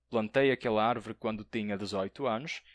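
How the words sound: It is spoken in a European Portuguese accent. "um português"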